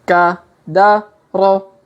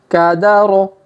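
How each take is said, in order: First: The letters are read slowly. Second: The letters are read quickly. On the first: "kita baca pelan-pelan" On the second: "Kalau dipercepat"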